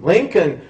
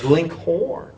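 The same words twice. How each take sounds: First: Said in the usual way. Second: "Linkhorn" ending in horn, for Lincoln; young Lincoln's dialect form "Linkhorn"; dialect pronunciation. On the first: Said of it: "pronounced his name as a young boy as Linkhorn". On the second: Shown as a demonstration. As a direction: say "Linkhorn", with a full HORN as second syllable. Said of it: "pronounced his name as a young boy as".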